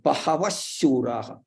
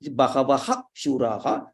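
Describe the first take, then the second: First: The final h becomes sh, joining the words. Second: The final h is kept, words said apart. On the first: The two words are joined in sandhi. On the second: The two words stand separately.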